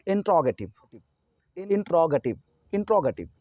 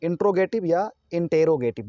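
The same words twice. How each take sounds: First: इंट्रोगेटिव as in-TRO-ga-tiv, short ga; correct interrogative pronunciation. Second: इंट्रोगेटिव as intro-GAY-tiv, इंटेरोगेटिव as in-tero-gay-tiv; long gay in इंट्रोगेटिव and इंटेरोगेटिव; mispronounced interrogative. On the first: Teacher modelling the correct form, इंट्रोगेटिव as in-TRAW-ga-tiv. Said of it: "इसका सही उच्चारण होगा". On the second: Teacher quoting two wrong readings, इंट्रोगेटिव with a long gay. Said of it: "जो कि दोनों गलत हैं". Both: Shown as a demonstration.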